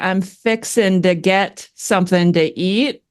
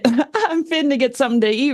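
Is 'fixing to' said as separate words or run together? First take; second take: separate words; run together. First: 'Fixin' to' is said as separate words. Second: 'Fixin' to' is run together as 'finna'. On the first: "instead of saying I'm fixin' to get something to eat" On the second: "they like jumble their words together"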